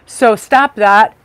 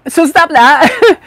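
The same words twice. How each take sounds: First: Said in the usual way. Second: Higher, louder, slow STOP; playful stern repeat, stop pitched up; firm repeat. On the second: Shown as a demonstration. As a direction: hammer the word stop with a rising push.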